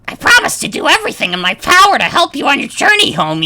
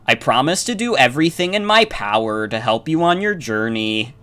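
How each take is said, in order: First: It is said in a throaty Marge Simpson voice. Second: It is said in a plain reading voice.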